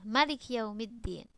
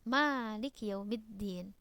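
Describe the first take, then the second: First: The vowel after the first m is short. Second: The vowel after the first m is long. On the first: "tidak membaca mimnya dengan panjang" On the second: "dengan memanjangkan mimnya dua harokat"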